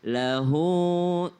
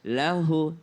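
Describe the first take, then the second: First: The final vowel is long. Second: The final vowel is short. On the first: "Tapi kalau bentuknya seperti angka enam berarti" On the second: "Kalau angka sembilan berarti dia tidak panjang hu-nya"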